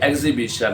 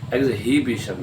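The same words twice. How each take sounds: First: The h sound is silent. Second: The h sound is pronounced. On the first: The speaker calls it right. "तो ये एग्जीबिशन है, इसमें भी एच silent है" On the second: The speaker calls it wrong. "एग्जीबिशन नहीं होता"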